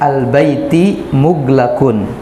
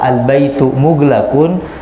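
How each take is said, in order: First: The first word ends with an i vowel. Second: The first word ends with a u vowel. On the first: The house word is attached to a preceding word. "karena dia di kasroh" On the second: It is a complete sentence: the house is closed. "dia dibaca dhammah"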